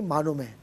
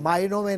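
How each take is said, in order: First: No 'y' glide follows the first vowel. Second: A 'y' glide follows the first vowel. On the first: The speaker calls it right. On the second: The speaker calls it wrong. "मायनों में नहीं"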